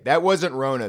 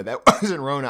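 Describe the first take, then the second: First: Said in the usual way. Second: Laughing. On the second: Real, not acted. Repeats the line, then laughs.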